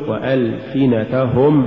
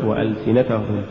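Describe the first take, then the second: First: Slow وألسنتهم, every short vowel complete; full vowels. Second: وألسنتهم with short vowels cut short; snatched vowels. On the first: Teacher models correct recitation, وألسنتهم evenly voweled. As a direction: give each syllable of وألسنتهم equal room. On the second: Teacher shows crooked reading, وألسنتهم hurried. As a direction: hurry the syllables of وألسنتهم. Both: Shown as a demonstration. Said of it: "ولا تقل".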